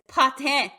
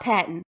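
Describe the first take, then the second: First: The name ends with an 'eh'-like sound. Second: The name ends with a plain 'ton' sound. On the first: The speaker calls it right. "It's de- eh at the end" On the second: The speaker calls it wrong. "It's not Patton"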